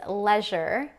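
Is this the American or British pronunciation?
British. It is said with a British pronunciation.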